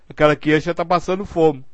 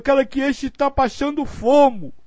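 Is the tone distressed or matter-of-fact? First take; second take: matter-of-fact; distressed. First: It is said in a plain, unemotional tone. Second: It is said in a pained, emotional tone. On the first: The hunger is simply noted as a fact. The speaker calls it right. "Não é isso" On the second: The hunger causes personal suffering. The speaker calls it wrong. "Que coisa horrível"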